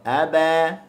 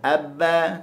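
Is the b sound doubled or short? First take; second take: short; doubled. First: The b sound is short and relaxed. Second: The b sound is held and doubled. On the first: The speaker calls it right. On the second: The speaker calls it wrong. "ataupun abba, tak boleh juga"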